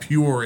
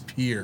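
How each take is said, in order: First: The word is said with a 'pure'-like vowel. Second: The word is said with a 'peer'-like vowel. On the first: The speaker calls it wrong. "It's not pure" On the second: The speaker calls it right. "It's peer"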